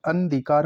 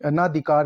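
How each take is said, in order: First: Said in the usual way. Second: अनाधिकार with long naa; mispronounced अनधिकार. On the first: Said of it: "अनधिकार होगा". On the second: Shown as a demonstration. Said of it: "अनाधिकार नहीं होगा".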